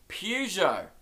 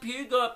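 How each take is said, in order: First: It starts with pew and ends with jo. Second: It starts with pew and ends with got. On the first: The speaker calls it right. "The correct pronunciation is Peugeot" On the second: The speaker calls it wrong. "I got the pew right, didn't get the jo, went with got"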